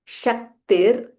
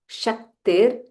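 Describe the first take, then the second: Both takes have the same delivery.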